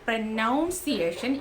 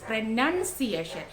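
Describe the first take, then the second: First: The second syllable sounds like 'noun'. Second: The second syllable sounds like 'nun'. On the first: The speaker calls it wrong. "That's not പ്രൊനൗൺസിയേഷൻ" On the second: The speaker calls it right. "It's പ്രൊനൗൺസിയേഷൻ"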